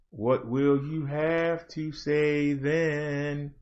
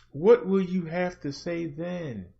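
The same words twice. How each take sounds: First: Much softer, slow, lower challenge; slow hushed taunt. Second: Quieter repeat. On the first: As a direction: let it sink in, slow and hushed. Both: Real, not acted. Repeated challenge, fading.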